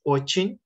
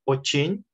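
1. La sílaba tónica es la segunda. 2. La sílaba tónica es la segunda.

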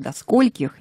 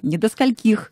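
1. Ударение падает на первый слог слова «скольких». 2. Ударение падает на последний слог слова «скольких». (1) "правильно" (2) "не"

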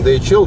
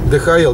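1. Буквы читаются по-английски. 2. Буквы читаются по-эстонски. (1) "по-английски" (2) "говорят по-эстонски"

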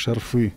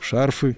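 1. Ударение на втором слоге. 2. Ударение на первом слоге.

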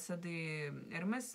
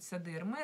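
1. Название заканчивается слышимым звуком s. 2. Название заканчивается без всякого звука s.

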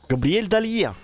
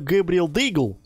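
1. Фамилия произносится как 'Dalye', без g. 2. Фамилия произносится как 'Daygle', с g. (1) "Правильно будет называть его Габриэль Далье" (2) "на самом деле я неправильно произношу его фамилию"

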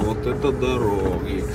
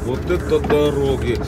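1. Сказано саркастичным тоном. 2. Сказано с искренним удивлением.

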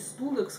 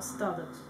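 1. Первый гласный звучит как 'oo'. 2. Первый гласный звучит как 'uh'. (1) "как у нас в России всегда читалось, произносилось" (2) "а Stadex"

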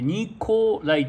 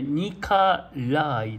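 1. 2番目の母音は、はっきりした『o』の音。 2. 2番目の母音は『a』の音。最後が強くなる。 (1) "ニコライとはならない" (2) "最後にアクセントがあるんで"

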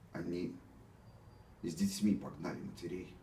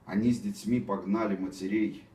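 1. Голос дрожит от волнения. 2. Голос звучит напыщенно и слишком торжественно. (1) "у меня дрогнул голос, и это все нечестно" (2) "Опять какой-то этот пафос ненужный"

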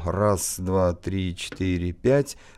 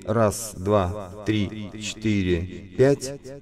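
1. На голосе пульсирующий эффект тремоло. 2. На голосе хорус с эхо-задержкой. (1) "это у нас тремоло" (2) "это хорусы плюс дилеи"

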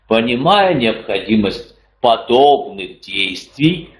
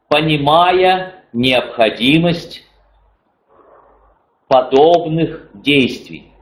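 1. Слова быстро сливаются вместе с редуцированными слогами. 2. Каждый слог произносится чётко и отдельно. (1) "произноситься будет так" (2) "написано"

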